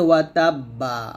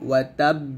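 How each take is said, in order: First: The last word ends with a vowel. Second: The last word ends with a consonant. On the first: "এখানে আছে ওয়া তাব্বা" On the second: "ওয়াকফ করলে ... হবে ওয়া তাব"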